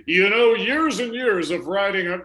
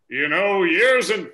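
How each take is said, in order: First: Cartoon cowboy voice. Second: Put-on slow Western cowboy accent. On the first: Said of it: "now it sounds like a cartoon character". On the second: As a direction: drawl it like an old cowboy. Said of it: "that's the cowboy voice I'm doing there".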